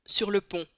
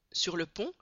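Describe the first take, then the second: First: Affirmer posément, ton qui descend; le mécanicien confirme sans hésiter; réponse ferme. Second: Surpris, la voix monte sur pont; un voyageur qui n'y croit pas; question étonnée. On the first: (confirmation assurée) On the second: (question surprise et incrédule) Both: A narrator's reading. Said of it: "répondit un voyageur".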